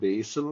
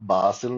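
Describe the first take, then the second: First: The first vowel sounds like 'ay'. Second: The first vowel sounds like a long 'ah'. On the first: The speaker calls it right. "ബേസിൽ എന്നുള്ള ഉച്ചാരണമല്ല" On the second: The speaker calls it wrong. "ബാസിൽ എന്നുള്ള ഉച്ചാരണമായിരിക്കും"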